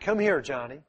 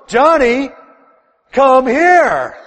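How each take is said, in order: First: It is said at normal loudness. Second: It is said in a louder, raised voice.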